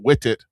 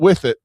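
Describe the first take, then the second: First: The th sound in with is dropped. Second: The th sound in with is pronounced. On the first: The speaker calls it right. "but wit it" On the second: The speaker calls it wrong. "not with it"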